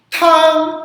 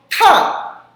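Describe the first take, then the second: First: The pitch stays high and level. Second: The pitch falls sharply and forcefully. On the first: "primeiro tom" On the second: "o quarto tom... Quarto tom é forte"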